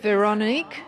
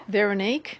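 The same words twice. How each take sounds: First: Veronique with an open "ah" in the middle, rising like a question; tentative pronunciation. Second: Veronique with a short "uh" in the middle, rising like a question; second tentative pronunciation. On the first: Host checking the artist's middle name, tentative Veronique with open middle vowel. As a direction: try Veronique as "veh-rah-NEEK?". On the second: Host retrying the artist's middle name, questioning Veronique with reduced middle vowel. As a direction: try Veronique as "veh-ruh-NEEK?". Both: Real, not acted. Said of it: "I don't have a Dutch accent".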